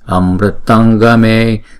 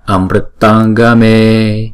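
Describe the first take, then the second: First: The word ends with an ng sound into the next. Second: The same.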